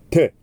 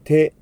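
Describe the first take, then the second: First: It has a very sharp, crisp t sound. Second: It has a soft, Japanese-style t sound. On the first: The speaker calls it right. "非常に鋭い明確な発音" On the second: The speaker calls it wrong. "日本語の手という音ではなく"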